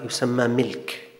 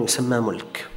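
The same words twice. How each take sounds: First: ملك pronounced "milk", with a short i; kasra on the mim. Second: ملك pronounced "mulk", with a short u; damma on the mim. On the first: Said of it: "الملك بكسر الميم". (ملك بكسر الميم) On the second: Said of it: "بضم الميم". (ملك بضم الميم) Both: Shown as a demonstration.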